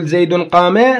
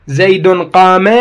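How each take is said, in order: First: Said in the usual way. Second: "زيد قام" said slowly, each word drawn out; slow teaching example; slow example read. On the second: Shown as a demonstration. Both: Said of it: "من أقول".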